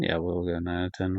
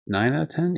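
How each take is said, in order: First: Yeah, we'll go nine out of ten, with ten falling; relaxed falling tune on ten. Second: Nine out of ten? with ten lifted high; tentative, rising tune on ten; questioning rise. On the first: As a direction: settle it, letting "ten" drop. Confirms the rating. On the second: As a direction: ask it, pitching "ten" way up. Unsure rating, then confirms. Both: Real, not acted.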